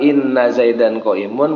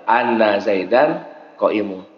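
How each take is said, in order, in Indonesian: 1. Kata pertama diawali dengan vokal 'i'. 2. Kata pertama diawali dengan vokal 'a'. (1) "Boleh dibaca inna" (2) "boleh dibaca anna"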